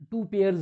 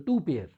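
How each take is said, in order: First: "पेयर्स" ending on an audible plural s; wrong plural. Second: Said in the usual way. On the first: Shown as a demonstration. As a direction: sound the final s in "पेयर्स". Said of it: "नहीं बोलेंगे". ("पेयर्स" का आखिरी स साफ़ बोलें) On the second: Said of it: "two पेयर्स नहीं बोलेंगे".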